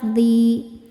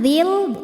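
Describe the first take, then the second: First: The vowel is held long, two beats. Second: The vowel is short, linked to the next sound. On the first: The reader stops on this word. "ketika berhenti ... dibacanya panjang dua harokat" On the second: The reader continues into the next word. "jika diteruskan dzil, dzi-nya dibaca pendek"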